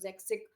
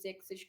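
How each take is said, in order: First: The word ends with a hard k sound. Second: The word ends with a soft ch sound. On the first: "कुछ ज़ैक्सिक" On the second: "को"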